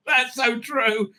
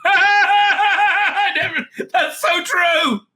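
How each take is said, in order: First: Said in the usual way. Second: High, loud, slow burst of laughter through the words; real laughter breaking into the line; laughing shout. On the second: Real, not acted. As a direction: crack up and shout it out. Reacting with laughter to a joke.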